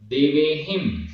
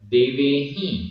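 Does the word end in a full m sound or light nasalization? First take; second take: full m; light nasalization. First: The ending closes with a full m sound. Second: The ending has only light nasalization. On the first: "हा में छोटी ही की मात्रा और बिंदी" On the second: "हा में छोटी की मात्रा और चंद्र बिंदी"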